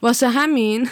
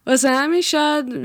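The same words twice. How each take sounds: First: Said in the usual way. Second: Higher, laughing through the words. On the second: Real, not acted. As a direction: laugh as you repeat it. Repeats phrase while laughing. (با خنده)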